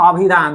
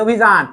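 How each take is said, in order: First: অভিধান begun with open "aw"; open "aw" start. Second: অভিযান begun with round "o"; rounded "o" start. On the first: Teacher showing what we don't say, অভিধান with open "aw". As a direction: say অভিধান as "awbhidhan". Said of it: "বলি না অভিধান". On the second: Teacher showing what we do say, অভিযান with round "o". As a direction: say অভিযান as "obhijan". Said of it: "বলি অভিযান". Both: Shown as a demonstration.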